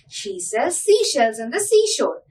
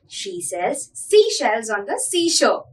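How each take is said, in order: First: It is said at a fast pace. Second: It is said at a moderate pace.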